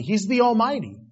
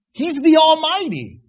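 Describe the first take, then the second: First: Said in the usual way. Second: Almighty cried out high and loud, peak of the sermon; proclaimed loud. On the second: Shown as a demonstration. Preacher crying the name of God to the congregation, loud and high. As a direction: shout He's the Almighty to the rafters. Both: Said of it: "you really capsulize the word with Almighty".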